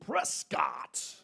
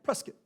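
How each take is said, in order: First: The second syllable is carefully and fully pronounced. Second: The second syllable is reduced and said quickly. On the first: The speaker calls it wrong. "I made sure to really enunciate it too" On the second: The speaker calls it right.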